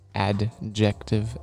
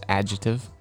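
First: The word is broken apart into separate syllables. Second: The word is said smoothly in one piece.

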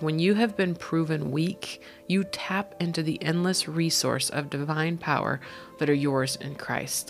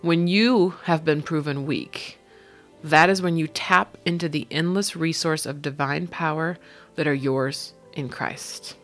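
First: It is read at a normal pace. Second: It is read slowly and deliberately.

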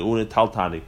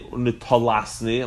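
First: The consonant before -ni is a hard t. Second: The consonant before -ni is a soft s. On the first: The speaker calls it right. "the Taf is Dugusha Psucha. It's supposed to be Dugusha. It's Taltani" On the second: The speaker calls it wrong. "you don't say Unetalasni like some Gersois"

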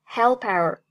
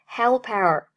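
The two takes are said the same way.

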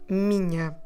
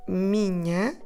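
The two takes are said the same way.

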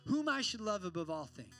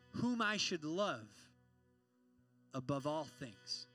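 First: It is said at a quicker pace. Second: It is said at a slower pace.

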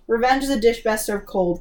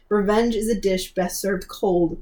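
First: The sentence is spoken quickly. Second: The sentence is spoken more slowly.

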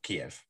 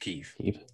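First: The name is said in the Russian-style pronunciation. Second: The name is said in the Ukrainian-style pronunciation. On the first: The speaker calls it wrong. "the Russians say it differently" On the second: The speaker calls it right. "That's how the Ukrainians say it"

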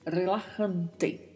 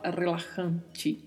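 First: The final T is a plain t sound. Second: The final T sounds like a ch sound. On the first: The speaker calls it right. "Então esta é a pronúncia correta para esta palavra" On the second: The speaker calls it wrong. "não tem som de ti no espanhol, então não se fala relajante, não"

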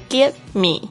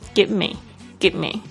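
First: The v sound in give is clearly pronounced. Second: Said fast, the v sound is nearly dropped. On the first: "它有这个v 的声音哦" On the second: "讲得很快的时候，其实就是give me"

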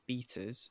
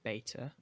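First: It is said with a British pronunciation. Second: It is said with an American pronunciation.

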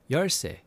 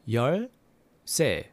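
First: It is said at a faster pace. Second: It is said slowly and carefully.

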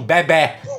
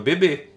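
First: Portuguese accent with an open final vowel. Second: Brazilian accent with a closed final vowel.

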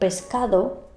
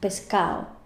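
First: The d is pronounced in standard Spanish. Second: The d is dropped, in a Murcian accent.

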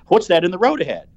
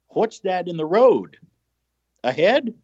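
First: It runs on without a pause before 'ahead'. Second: There is a pause before 'ahead'.

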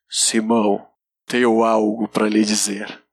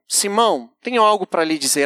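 First: It is said in a dramatic movie-actor voice. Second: It is said in a plain, normal voice.

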